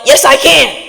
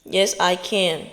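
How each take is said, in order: First: Louder, higher defiant yell; yell back. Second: Much softer, slow and settled; quiet affirmation. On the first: Speaker yelling back at the negative voice, defiant shout. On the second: Speaker repeating the affirmation to herself, soft and slow. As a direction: say it to yourself under your breath. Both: Shown as a demonstration. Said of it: "You have to yell".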